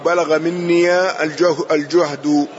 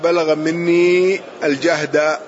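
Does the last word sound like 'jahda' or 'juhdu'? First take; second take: juhdu; jahda. First: The last word has 'u' vowels: juhdu. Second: The last word has 'a' vowels: jahda. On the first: The strain reached its full extent in me. "أو بالضم والرفع" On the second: The effort reached its utmost limit in me. "بالنصب والفتح"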